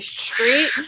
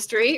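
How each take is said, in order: First: The word begins with an sh sound. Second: The word begins with a plain s sound. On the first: "sometimes an H slips in there. So you say street" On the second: "instead of street"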